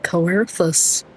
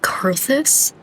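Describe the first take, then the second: First: The first syllable has an extra O sound. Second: The first syllable has no extra O sound. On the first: "Why have I been pronouncing it Coerthus?" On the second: "There's no O? It's just Kurthus?"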